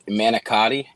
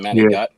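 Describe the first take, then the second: First: The word is said in full, ending in a vowel. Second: The word is clipped, ending in a consonant. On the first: This is the usual way of saying it. "you got manicotti" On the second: This is the speaker's own way of saying it. "I say"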